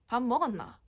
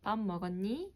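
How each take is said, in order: First: Busan accent with strongly fluctuating pitch. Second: Soft Seoul accent, rising on the last word.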